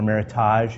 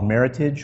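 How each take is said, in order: First: The word is said with a French-style pronunciation. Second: The word is said with an English-style pronunciation.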